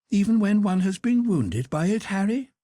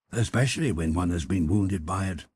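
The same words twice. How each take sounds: First: Pitched-up Duchess probing; high Duchess voice, wry question. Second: A hint of a suave wit, only slightly raised; lightly voiced Lord Henry, stress on Especially. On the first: Acted. Duchess teasing Lord Henry about love, high and arch. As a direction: arch noblewoman, stress on been. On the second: Lord Henry topping the Duchess's line, lightly voiced. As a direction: lean on Especially, dry and assured.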